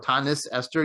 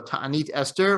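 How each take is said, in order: First: It has an Ashkenazi pronunciation, ending in s. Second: It has a non-Ashkenazi pronunciation, ending in t.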